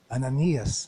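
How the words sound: It is said imitating the voice of God.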